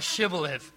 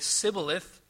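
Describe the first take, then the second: First: The word begins with an SH sound. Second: The word begins with a plain S sound. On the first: The speaker can make the SH sound. The speaker calls it right. "but not shibboleth. They could not pronounce the SH sound" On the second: The speaker cannot make the SH sound. The speaker calls it wrong. "the people of Ephraim could say sibboleth"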